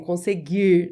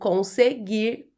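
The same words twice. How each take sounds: First: The final R sound is dropped. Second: The final R sound is clearly pronounced. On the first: "Meu sotaque é assim" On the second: "quando eu preciso marcar esse R no final"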